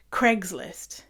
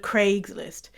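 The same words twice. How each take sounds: First: "Craigslist" said as Cregs-list; short e in Craigslist; North American Craigslist. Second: "Craigslist" with a long ay; British Craigslist. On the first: Mocking how they say the website, short-vowel "Craigslist". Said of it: "they say Craig". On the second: Giving the British version of the website, long-vowel "Craigslist". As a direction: say Craigslist as Craygs-list. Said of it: "instead of Craigslist". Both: Shown as a demonstration.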